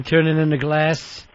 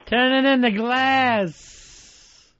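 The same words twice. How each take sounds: First: Said in the usual way. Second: Drawn out, high and slow; slow drawn-out mock voice. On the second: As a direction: stretch it out like a mock announcer. Host mocks bombing idea, drawn out.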